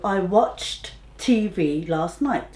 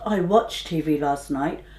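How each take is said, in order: First: The final t of watched is clearly sounded. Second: The final t of watched is dropped. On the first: The speaker calls it right. "we do have to stress the end sound" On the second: The speaker calls it wrong.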